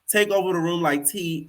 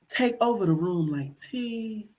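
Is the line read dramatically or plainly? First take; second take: plainly; dramatically. First: It is read in a plain, ordinary way. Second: It is read in a dramatic spoken-word poet style.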